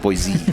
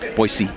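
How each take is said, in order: First: The middle consonant is a buzzing Z sound. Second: The middle consonant is a hissing S sound. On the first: The speaker calls it wrong. "not Boise" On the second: The speaker calls it right. "with the S, not the Z"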